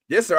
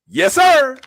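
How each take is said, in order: First: Yes sir runs straight into the next clause. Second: Yes sir ends with a full stop. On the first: It introduces the list of roles turned down. "You're reading it like this" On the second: It answers and confirms the report itself. "what I'm reading it as ... Period"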